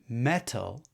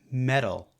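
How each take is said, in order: First: The middle consonant is a clear T sound. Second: The middle consonant is a quick tap sound.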